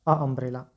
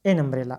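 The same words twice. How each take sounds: First: "अ अम्ब्रेला" with a plain short a straight into the vowel of umbrella; awkward wrong form. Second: "एन अम्ब्रेला" with the n linking into umbrella; smooth correct form. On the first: Teacher shows students the clumsy wrong article. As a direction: stumble a little on "अ अम्ब्रेला", vowel bumping vowel. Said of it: "कठिनाई होगा". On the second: Teacher shows students the easy right article. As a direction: glide easily from "एन" into "अम्ब्रेला". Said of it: "ये हो जाता है एन". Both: Shown as a demonstration.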